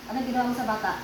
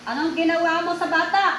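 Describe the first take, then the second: First: Said in the usual way. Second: Higher, forceful interrogation, rising at the end; demanding. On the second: Real, not acted. Healer demands what was done to the child, demanding. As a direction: demand an answer, voice raised.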